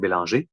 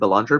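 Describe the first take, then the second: First: The name is said the French way. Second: The name is said the English way.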